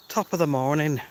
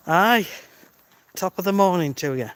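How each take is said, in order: First: Said in the usual way. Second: Slightly raised, hammed-up Irish accent; bad Irish accent. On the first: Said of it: "I believe, an Irish phrase". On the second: Livestreamer greeting a viewer named Scott, bad Irish accent. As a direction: put on your worst Irish accent. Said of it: "that's my worst Irish accent".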